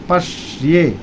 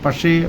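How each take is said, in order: First: The first syllable is said with strong force. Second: The first syllable is said lightly, without force. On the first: The speaker calls it right. "पश पर बलाघात लगाएंगे, पटक्के बोलेंगे" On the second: The speaker calls it wrong. "यहाँ पर लोग खाली ए बोलते थे"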